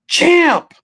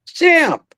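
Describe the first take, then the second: First: High, bright greeting call of Champ!. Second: High greeting call of Champ!, repeated. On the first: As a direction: hail him: "Champ!". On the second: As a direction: hail him again: "Champ!". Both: Retold or imitated. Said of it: "That's the word he said".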